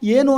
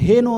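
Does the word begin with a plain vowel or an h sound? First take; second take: plain vowel; h sound. First: The word begins with a plain vowel sound. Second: The word begins with an added h sound. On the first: The speaker calls it right. "ಏನು ಅನ್ನೋ ತಾವು" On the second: The speaker calls it wrong. "ಏನು ಅಂದರೆ ಬೇರೆ ಆಗುತ್ತಲ್ವ ಅರ್ಥ"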